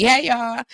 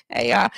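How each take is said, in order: First: Higher, lifted greeting to viewers. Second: Low rising greeting. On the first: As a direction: sing the hello up high. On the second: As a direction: lower greeting that rises at the end. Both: Real, not acted. Greeting viewers twice differently.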